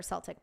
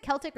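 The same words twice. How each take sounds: First: "Celtic" with an S sound; "Celtic" pronounced SEL-tik; soft-C pronunciation. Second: "Celtic" with a hard K sound; "Celtic" pronounced KEL-tik; hard-C pronunciation. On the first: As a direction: say "Celtic" starting like "sell". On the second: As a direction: say "Celtic" starting like "kelp". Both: Shown as a demonstration. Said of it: "Is it Celtic or Celtic".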